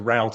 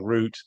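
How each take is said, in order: First: It is said in an American accent. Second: It is said in a British accent. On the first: "as the Americans say" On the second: "as the British say"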